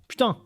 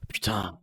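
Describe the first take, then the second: First: The word is said with a surprised tone. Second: The word is said with an annoyed tone. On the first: The speaker is surprised. "you are surprised" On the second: The speaker is annoyed. "you are um, annoyed"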